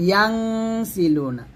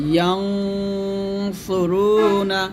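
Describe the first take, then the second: First: ইয়াং with a light, unrounded nasal hum, held long; thin ghunnah. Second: ইয়াং with a heavy, rounded nasal hum, held long; thick ghunnah. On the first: Teacher shows the light sound, thin held nasal on ইয়াং. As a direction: hold a thin "ng" on ইয়াং into সিলুনা. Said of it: "এটা হলো পাতলা". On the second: Teacher shows ghunnah before sad, thick held nasal on ইয়াং. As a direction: draw out a thick "ng" on ইয়াং into সুরুনা. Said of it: "সদ আসলে এখানে মোটা করতে হবে। এরকম". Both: Shown as a demonstration.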